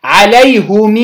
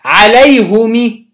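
First: عليهم said "alayhumii", long final ee; kasra with sila. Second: عليهم said "alayhumi", short final i; slow عليهم, u after h and i after m; kasra after damma. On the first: Teacher showing the tenth form, عليهم as "alayhumii". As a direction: stretch the closing i of عليهم after "hum". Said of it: "بكسر الميم مع صلتها". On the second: Teacher showing another form, عليهم as "alayhumi". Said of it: "بكسر الميم مع ضم الهاء". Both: Shown as a demonstration.

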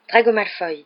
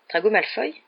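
First: "Drago Malfoy" named firmly, falling at the end; falling statement. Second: "Drago Malfoy" as a question, rising at the end; questioning echo. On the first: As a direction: answer "Drago Malfoy" as a settled fact. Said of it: "dit Harry". (« Drago Malfoy » affirmatif, ton descendant) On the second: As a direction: repeat "Drago Malfoy" to check the name. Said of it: "dit George en se tournant vers lui". (« Drago Malfoy » interrogatif, ton montant) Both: A narrator's reading.

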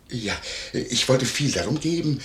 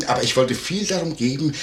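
First: Said in the usual way. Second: Viel pushed up and louder; stress on viel. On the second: Acted. Landlord insists to the maid, hitting viel. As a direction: lean hard on viel. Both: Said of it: "ich bin nicht neugierig".

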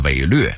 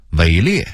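First: 伪劣 as wěilüè; Beijing-style 伪劣 with a rounded lüè; Beijing dialect reading. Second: Said in the usual way. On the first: Shown as a demonstration. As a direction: say 劣 in 伪劣 as lüè, not liè. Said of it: "北京话念". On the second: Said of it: "北京话念伪劣".

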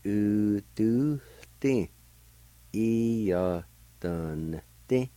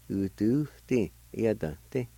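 First: Both parts in drawn-out, separated syllables. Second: Said in the usual way. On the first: Shown as a demonstration. Teacher putting both parts together, syllable by syllable. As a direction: sound out u, du, ti, E, ya, dun, ti piece by piece. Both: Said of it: "And together".

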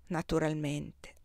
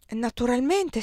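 First: Slower and lower, softer; slow, dry echo. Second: A touch higher and brighter, quick; lightly surprised. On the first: The emperor echoing Désirée, slow and dry. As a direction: echo her word back coolly. Napoleon echoes her coldly. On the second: Désirée to the emperor, lightly surprised. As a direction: answer with mild surprise. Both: A narrator's reading.

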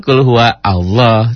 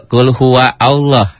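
First: "Qul huwa Allah" slowly, with huwa flowing into lah; joined reading. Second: Slow "Qul huwa Allah" with huwa and Allah read apart; wrong pause before Allah. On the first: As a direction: link huwa straight into lah, no break. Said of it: "Teman alifnya diwasal". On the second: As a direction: read "Qul huwa Allah" as separate words, not joined. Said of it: "Ada juga". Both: Shown as a demonstration.

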